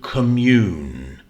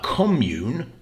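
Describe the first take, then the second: First: The stress is on the second syllable. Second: The stress is on the first syllable. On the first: It means to share spiritual feelings and thoughts. "which means to share spiritual feelings and thoughts, a verb" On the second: It names a shared community. "a noun, first syllable"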